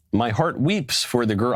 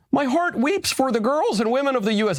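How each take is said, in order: First: Said in the usual way. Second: Much higher, squeaky put-on voice; mock prime minister in a silly high voice; mock Mette Frederiksen. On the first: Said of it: "I'm not gonna do a, a Danish impression". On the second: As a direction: parody a tearful prime minister, pitched way up. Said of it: "a Danish impression".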